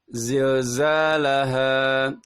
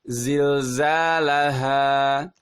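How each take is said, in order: First: The a vowel sounds thick, mouth half closed. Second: The a vowel sounds clear, mouth fully open. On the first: The speaker calls it wrong. "Ada terdengar lebih tebal" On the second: The speaker calls it right. "Yang benar adalah"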